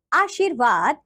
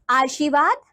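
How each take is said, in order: First: आशीर्वाद with a clear "r" before "vaad"; correct आशीर्वाद. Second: आशीर्वाद with the "r" dropped; mispronounced आशीर्वाद. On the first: Teacher giving children the right form, correctly pronounced. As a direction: say आशीर्वाद carefully as "aasheervaad". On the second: Teacher showing children a wrong form, mispronounced. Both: Shown as a demonstration. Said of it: "नीचे कुछ अशुद्ध शब्द".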